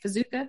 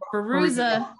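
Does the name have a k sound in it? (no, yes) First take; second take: yes; no. First: The name is said with a k sound. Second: The name is said without a k sound. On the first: The speaker calls it wrong. "Did I say it right?" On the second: The speaker calls it right. "get that K out"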